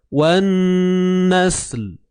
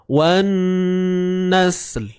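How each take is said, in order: The two takes are said the same way.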